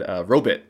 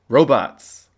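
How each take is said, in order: First: The second syllable sounds like 'bit'. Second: The second syllable sounds like 'bot'.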